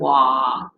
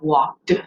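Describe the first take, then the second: First: The word ends early with no D. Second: The final D sound is clearly pronounced. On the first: The speaker calls it wrong. "without that ending on it" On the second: The speaker calls it right. "pronounce all the way to the D sound at the end of walked"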